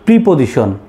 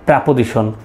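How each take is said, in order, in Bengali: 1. প্রথম সিলেবলে একটি স্পষ্ট 'ee' স্বরধ্বনি আছে। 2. প্রথম সিলেবলে একটি হ্রস্ব 'uh' স্বরধ্বনি আছে। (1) "কিন্তু আমরা ছোট ছোটকাল থেকে শিখে এসেছি" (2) "বাট একটা শুদ্ধ উচ্চারণ হবে"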